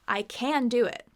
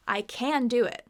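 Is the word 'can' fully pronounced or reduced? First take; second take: full; full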